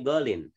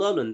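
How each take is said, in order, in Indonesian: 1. Kata itu berakhir dengan bunyi 'in'. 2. Kata itu berakhir dengan bunyi 'un'. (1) "tapi golin" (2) "Bukan golun"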